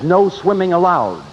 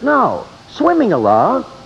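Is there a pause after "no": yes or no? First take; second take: no; yes. First: It is said without a pause after no. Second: There is a pause after no.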